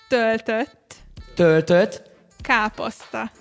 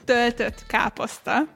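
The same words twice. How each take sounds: First: The phrase is said slowly and deliberately. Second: The phrase is said at a normal pace.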